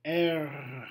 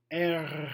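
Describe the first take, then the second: First: "R" with a clear rolled French R. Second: R said with a French roll. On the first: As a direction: roll the "R" once more. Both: Shown as a demonstration. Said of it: "if you can hear the roll".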